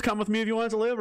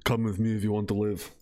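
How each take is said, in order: First: High-pitched Arnold catchphrase take; Arnold impression. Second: Low-pitched movie-line delivery; lightly voiced movie hero, pitched down; Kyle Reese impression. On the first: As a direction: deliver it as a raised-voice movie Arnold. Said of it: "Is it the Arnold". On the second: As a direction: drop the pitch for the action-film quote. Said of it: "or is it Kyle Reese".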